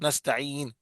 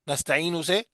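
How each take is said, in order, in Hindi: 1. शब्द अंतिम व्यंजन पर एकदम रुक जाता है। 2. अंतिम व्यंजन के बाद 'u' स्वर आता है। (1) "नस्ताइन यानी साकिन कर दिया" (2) "ये पेश है ना"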